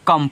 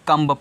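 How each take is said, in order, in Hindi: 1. शब्द 'm' पर खत्म होता है, उसमें 'b' नहीं है। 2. शब्द के अंत में 'b' की आवाज़ सुनाई देती है। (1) "इसको कम पढ़ोगे।" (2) "अगर आप कम्ब पढ़ोगे तो रॉन्ग हो जाएगा।"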